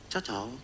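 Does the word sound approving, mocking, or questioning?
questioning. It is said in a questioning, doubtful way. It asks whether it fits or not. "Itu dia ada tanya itu, cocok atau tidak?"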